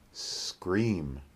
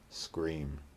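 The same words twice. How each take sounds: First: The S sound is drawn out and exaggerated. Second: The S sound is short and ordinary. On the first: "The first time we'll exaggerate the S" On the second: "the second time we'll make a normal S"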